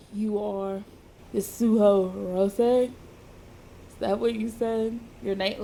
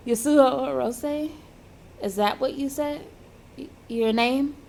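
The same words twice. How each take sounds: First: Slightly lowered, half-hearted man's voice; hint of a man's voice. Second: Said in the usual way. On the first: Injured man asks if that is the name, lightly voiced man. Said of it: "not even gonna attempt to do a man's voice". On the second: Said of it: "gonna use my same voice".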